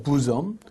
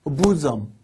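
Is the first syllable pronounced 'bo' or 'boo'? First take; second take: boo; boo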